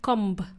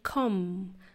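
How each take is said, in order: First: The word ends with an audible B sound. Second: The word ends in M with no B sound. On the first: The speaker calls it wrong. "Not comb" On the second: The speaker calls it right. "the letter B is silent"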